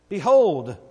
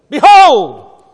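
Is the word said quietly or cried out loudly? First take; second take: quietly; cried out. First: The word is said in a calm, quiet voice. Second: The word is cried out in a loud voice. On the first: The speaker calls it wrong. "I don't think he said it that way" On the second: The speaker calls it right. "And he cried it out"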